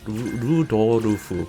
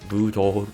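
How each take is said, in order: First: It is said with added vowels, Japanese style. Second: It is said as a two-syllable English name.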